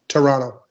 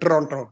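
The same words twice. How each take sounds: First: Said in a Canadian accent, second T dropped. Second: Said in a Punjabi accent with a rolled R. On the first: "Canadians don't say the second T" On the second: "That's how you got to say it in Punjabi"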